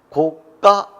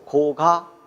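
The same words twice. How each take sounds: First: The second syllable starts with a tense consonant. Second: The second syllable starts with a plain consonant. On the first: "그러면 사이소리 현상이고" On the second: "사이소리 현상이 일어나지 않았죠"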